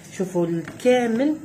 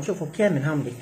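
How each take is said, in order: First: الكامل drawn out slowly, higher and louder with a rise; slow emphatic الكامل; stress on الكامل. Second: Said in the usual way. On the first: Shown as a demonstration. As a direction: lean on الكامل so they see all of them.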